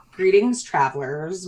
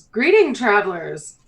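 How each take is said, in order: First: Mayor's greeting retried. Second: Mayor's greeting. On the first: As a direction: settle down into the character's greeting. Second try at mayor's greeting. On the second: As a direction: hail the newcomers in a raised voice. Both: Acted.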